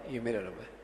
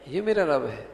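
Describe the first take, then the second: First: یہ میرا رب ہے very soft and low, falling; hushed declarative یہ میرا رب ہے; statement tone. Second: یہ میرا رب ہے lifted like a question; questioning reading of یہ میرا رب ہے. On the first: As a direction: report یہ میرا رب ہے as mere information. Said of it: "یہ خبر ہے". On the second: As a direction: query یہ میرا رب ہے instead of stating it. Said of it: "اور ایک دوسرا انداز ہے". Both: Shown as a demonstration.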